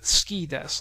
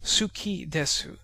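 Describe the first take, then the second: First: The vowel after the s is dropped. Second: The vowel after the s is fully pronounced. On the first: "It would read ski desu with dropped vowels" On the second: "instead of suki desu"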